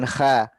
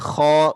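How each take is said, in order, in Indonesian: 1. Bunyi kh itu tipis dengan vokal depan. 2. Bunyi kh itu tebal dengan vokal belakang. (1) "bukan kha" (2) "huruf kho itu perlu ditebalkan"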